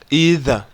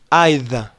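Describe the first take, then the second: First: It is pronounced with an American accent. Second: It is pronounced with a British accent. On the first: "muri American English we say either" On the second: "In British English we say either"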